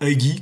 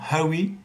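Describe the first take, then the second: First: The name is said with a hard g sound. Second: The name is said without a hard g sound. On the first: "alors que nous on dirait Huggy" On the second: "en anglais ils prononcent pas le G et le H"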